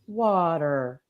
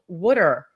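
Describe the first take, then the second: First: Water is said the general American way. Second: Water is said the Philly way, like wooder.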